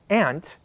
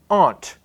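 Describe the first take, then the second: First: It sounds exactly like the insect word ant. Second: It has a vowel different from insect ant. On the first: "I pronounce it exactly like I pronounce the insect, the ant" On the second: "They just pronounce it differently"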